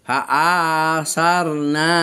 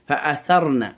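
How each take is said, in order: First: A vowel in the word is drawn out. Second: Every vowel in the word is kept short. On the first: The speaker calls it wrong. "এরকম টানা যাবে না" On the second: The speaker calls it right. "কন্ট্রোল করতে হবে নিজের মুখকে"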